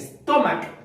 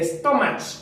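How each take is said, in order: First: The word ends with a k sound. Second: The word ends with a ch sound. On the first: The speaker calls it right. "sino dice stomach" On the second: The speaker calls it wrong. "no dice stomach"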